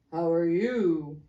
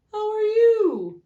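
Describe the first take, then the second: First: Gruff greeting. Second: Very high, loud, slow greeting; hearty greeting. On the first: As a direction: answer the greeting curtly. Second businessman replies. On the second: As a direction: greet a colleague grandly. Businessman greeting. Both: A narrator's reading.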